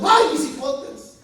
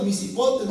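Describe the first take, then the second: First: Slow, drawn-out ghostly lament on "Ay, mis hipotes"; llorona wail. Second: Said in the usual way. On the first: Retold or imitated. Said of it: "cada país tiene su llorona". (lamento lento de la llorona: "Ay, mis hipotes") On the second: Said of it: "Los de Honduras".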